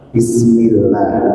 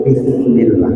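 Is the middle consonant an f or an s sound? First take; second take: s; f. First: The middle consonant is a hissing s sound. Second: The middle consonant is a breathy f sound. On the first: It means in the name of God. The speaker calls it right. "pakai sin" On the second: It means with sin or wrongdoing. The speaker calls it wrong. "keliru Bismillah pakai fa"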